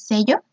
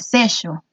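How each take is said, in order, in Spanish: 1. Se dice con acento estándar. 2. Se dice con acento argentino.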